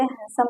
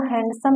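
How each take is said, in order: First: हैंडसम with a silent d, "han-some"; हैंडसम without the d; correct pronunciation. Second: हैंडसम with the d sounded, "hand-some"; हैंडसम pronounced letter by letter; wrong pronunciation. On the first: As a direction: say हैंडसम with n straight into s. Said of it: "हैंडसम कहते हैं". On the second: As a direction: say हैंडसम hitting the d. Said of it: "इसको हैंडसम नहीं कहते". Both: Shown as a demonstration.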